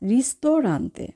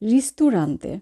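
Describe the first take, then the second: First: The second syllable has an 'oh' vowel. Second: The second syllable has an 'oo' vowel. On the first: The speaker calls it right. "তো আমরা উচ্চারণ করব ইল রিস্তোরান্তে" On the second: The speaker calls it wrong. "আমরা অনেকেই বলে থাকি রিস্তুরান্তে। রিস্তুরান্তে হবে না"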